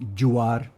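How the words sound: The word you starts with a j sound. It imitates a stereotyped Mexican or Spanish accent. The speaker calls it wrong. "pronunciaciones curiosas como you are"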